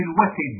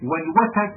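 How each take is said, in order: First: Said in the usual way. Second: والوتد with an a after the t, "watad"; fatha variant. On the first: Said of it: "لغة في الوتد". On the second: Shown as a demonstration. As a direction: give والوتد a short a on the t. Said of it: "بفتح التاء".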